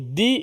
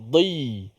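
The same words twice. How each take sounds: First: It starts with a plain d sound. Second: It starts with a heavy emphatic d sound. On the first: The speaker calls it wrong. "Kalau di itu dal" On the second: The speaker calls it right. "Tapi kita nak di"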